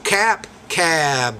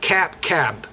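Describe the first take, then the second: First: The vowel in the second word is longer. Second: Both words have the same vowel length. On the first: The speaker calls it right. "the vowel before those sounds will be shorter or longer" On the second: The speaker calls it wrong. "Or you're saying cap, cab. But you, you can't understand what word is what when you do it like that"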